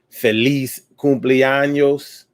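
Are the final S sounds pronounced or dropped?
pronounced. The final S sounds are pronounced.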